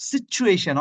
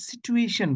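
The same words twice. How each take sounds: First: "সিচুয়েশন" with a ch, sit-choo-AY-shun; higher-pitched ch in "সিচুয়েশন"; correct pronunciation. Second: "সিচুয়েশন" as si-tu-AY-shun, no ch; plain t in "সিচুয়েশন"; common mispronunciation. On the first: Teacher models the word against the common one, correct pronunciation. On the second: Teacher quotes what many people say, wrong pronunciation. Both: Shown as a demonstration. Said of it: "অনেকে সিচুয়েশন বলে".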